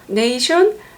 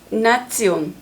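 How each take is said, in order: First: It sounds like 'nay-shun', ending in 'shun'. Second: It sounds like 'nah-tsyon', with a 'ts' sound. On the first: "영어" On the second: "독일어"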